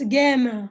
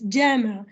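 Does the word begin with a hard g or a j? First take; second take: hard g; j. First: It begins with a hard g sound. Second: It begins with a j sound. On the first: This is the everyday Egyptian form of the word. "in Egyptian Arabic it's jama" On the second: This is the standard form of the word. "But in modern standard Arabic it's jama"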